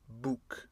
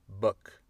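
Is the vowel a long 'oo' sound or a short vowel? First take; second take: long; short. First: The vowel is a long, rounded 'oo' sound. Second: The vowel is short and relaxed. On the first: The speaker calls it wrong. "Ce n'est pas prononcé comme book. C'est pas le son ou" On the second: The speaker calls it right. "c'est a"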